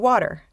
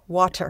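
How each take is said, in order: First: The middle consonant sounds like a soft d. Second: The middle consonant is a crisp, clear t. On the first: This is the everyday American way of saying it. "So in American, we say water, ... W A D D E R" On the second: This is the clean version clients ask for. "They want water"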